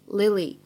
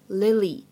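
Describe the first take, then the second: No difference in how they are said.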